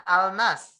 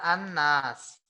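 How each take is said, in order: First: "al-nas" with the L sounded; lam dibaca jelas. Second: "an-nas" with a long held N; lam lebur berdengung. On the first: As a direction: keep a clear L in "al-nas". ("al-nas" dengan lam dibaca jelas) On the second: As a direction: hum through the N of "an-nas". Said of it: "tapi kita bacanya an-nas". ("an-nas" dengan nun ditahan mendengung) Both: Shown as a demonstration.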